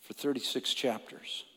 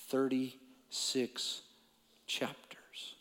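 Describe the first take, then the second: First: Softly, almost to himself; a hushed, heavy statement. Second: Slow, then fading into a whisper. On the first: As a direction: drop the voice to a hush. Dramatic pause on Job's suffering. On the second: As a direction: stretch out thirty-six and whisper chapters. Repeated for weight. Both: Real, not acted.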